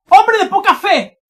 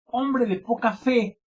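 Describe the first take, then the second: First: High, very loud shouted rebuke; grito de exclamación. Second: Said in the usual way. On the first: Shown as a demonstration. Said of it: "con grito". (exclamación a gritos) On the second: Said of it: "son con signos de exclamación".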